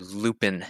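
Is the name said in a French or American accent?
American. The name is said with an American accent.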